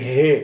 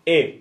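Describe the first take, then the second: First: The h sound is breathed out audibly. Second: The h sound is dropped, leaving a bare vowel. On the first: The speaker calls it right. "זה ה" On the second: The speaker calls it wrong. "לא כמו במבטא צרפתי"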